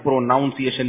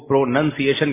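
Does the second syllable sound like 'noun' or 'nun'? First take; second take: noun; nun. First: The second syllable sounds like 'noun'. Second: The second syllable sounds like 'nun'. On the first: The speaker calls it wrong. "پروناؤنسیشن نہیں کہتے" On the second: The speaker calls it right. "جب اس کو پروننسیشن کہیں گے نا"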